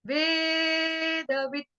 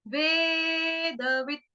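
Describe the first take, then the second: Both takes have the same delivery.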